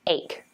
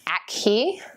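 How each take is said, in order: First: The word is said with one syllable. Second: The word is said with two syllables. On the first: The speaker calls it right. "One syllable and rhymes with lake" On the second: The speaker calls it wrong.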